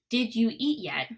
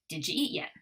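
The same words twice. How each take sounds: First: "Did you" is said as two separate words. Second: "Did you" blends together into "didja".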